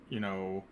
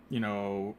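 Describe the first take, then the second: No difference in how they are said.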